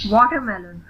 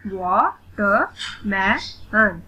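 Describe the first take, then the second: First: Said in the usual way. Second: "वाटरमेलन" very slowly in four separate beats; split into syllables. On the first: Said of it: "read the word". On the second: Shown as a demonstration. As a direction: pause after each syllable of "वाटरमेलन". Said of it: "split in the syllables". ("वाटरमेलन" का हर syllable अलग, रुक-रुककर)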